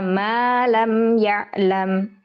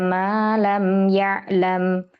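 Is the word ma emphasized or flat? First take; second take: emphasized; flat. First: The word ma is read with emphasis. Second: The word ma is read flat, without emphasis. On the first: Ma becomes an exclamation or a question. The speaker calls it wrong. "ini berarti jadi berubah maknanya" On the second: Ma means 'that which', a relative pronoun. The speaker calls it right. "ini bacanya datar saja"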